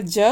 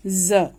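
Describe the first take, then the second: First: ज said as a plain j, as in "jug"; unbuzzed affricate ज; simple j. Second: ज said as a buzzing z; dotted z. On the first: Teacher contrasts undotted letter, ज as plain j. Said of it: "ज एक simple होता है". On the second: Teacher shows what the dot makes, ज as z. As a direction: turn ज into z, as in "zoo". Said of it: "ज के नीचे अगर बिंदी लग गई". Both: Shown as a demonstration.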